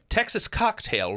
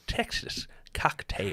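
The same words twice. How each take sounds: First: Said in the usual way. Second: Slow, whispered attempt at a Texas accent; a stab at a Texas accent that misses; failed Texas accent. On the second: Shown as a demonstration. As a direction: drag out Texas Cocktail in a half-botched Texas drawl. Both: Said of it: "That wasn't a Texas accent".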